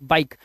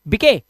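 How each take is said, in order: First: The word ends on the k with no vowel. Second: A vowel sound is pronounced after the final k. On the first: The speaker calls it right. "Sorry बाइक" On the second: The speaker calls it wrong. "बिके नहीं"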